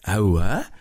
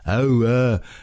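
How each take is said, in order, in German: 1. Es wird erstaunt, interessiert gesagt. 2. Es wird abweisend, verächtlich gesagt. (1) "oh, das ist ja interessant" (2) "dann sagt er so viel wie, hör mir doch auf mit diesem blöden Kram"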